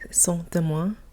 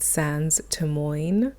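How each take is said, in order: First: It is said with a French accent. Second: It is said with an English accent. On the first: "in French" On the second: "if you say it in an anglicized phonetic way"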